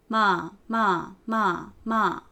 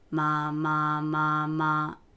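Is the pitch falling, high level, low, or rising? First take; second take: falling; low. First: The pitch falls from fairly high. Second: The pitch stays low and steady. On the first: "四声、" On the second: "三声、"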